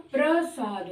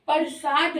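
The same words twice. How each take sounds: First: प्रसाद with a tight प्र onset; correct pronunciation. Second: प्रसाद split as परसाद; wrong pronunciation. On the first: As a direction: join प and र in प्रसाद. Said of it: "प्रसाद होता है". (प्रसाद का सही उच्चारण, प्र जोड़कर) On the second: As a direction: break प्रसाद after प with a vowel. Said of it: "प्रसाद नहीं होता". (प्रसाद का गलत उच्चारण, परसाद जैसा) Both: Shown as a demonstration.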